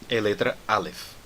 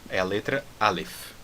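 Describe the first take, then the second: Both takes have the same delivery.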